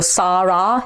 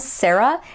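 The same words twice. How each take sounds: First: Both vowels are the same full ah sound. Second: The second vowel is a weak schwa sound. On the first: The speaker calls it wrong. "It's like the same vowel twice" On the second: The speaker calls it right. "in English it's more like a sa, eh, followed by an uh, which is a schwa vowel"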